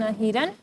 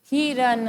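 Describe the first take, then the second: First: हिरन again, ending with a rise; repeated word, rising. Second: हिरन read slowly, syllable by syllable; clear reading of a word. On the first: Teacher repeats हिरन for the class, with a rising end. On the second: Teacher models हिरन for young students, slow and clear. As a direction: say हिरन clearly for the children to repeat. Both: Shown as a demonstration. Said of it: "एक बार फिर से शब्दों को पढ़ें".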